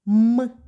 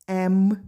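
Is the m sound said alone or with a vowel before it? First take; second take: alone; with vowel. First: The m sound is said on its own. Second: An e vowel comes before the m sound. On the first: This is the sound the letter stands for. "давай назвемо звуки" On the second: This is the name of the letter. "Назви літери"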